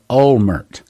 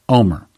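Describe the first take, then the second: First: The name is said with an American pronunciation. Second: The name is said with an Israeli pronunciation. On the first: "the American tongue would pronounce that Olmert" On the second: "They pronounce it Omer"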